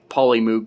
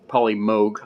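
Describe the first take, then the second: First: The vowel in moog sounds like oo. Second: The vowel in moog is a long O. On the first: The speaker calls it wrong. "you don't pronounce moog with two O" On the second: The speaker calls it right. "that's the proper pronunciation"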